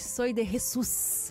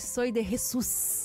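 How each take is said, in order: First: It is said with an imitated Spanish accent. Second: The same.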